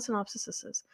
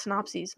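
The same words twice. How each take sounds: First: Synopsises with extra syllable sis-iz; synopsises, the wrong si-NOP-sis-iz; wrong pronunciation. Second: Synopses said as si-NOP-seez; correct pronunciation. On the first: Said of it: "not synopsises". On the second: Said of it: "it's pronounced synopses". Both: Shown as a demonstration.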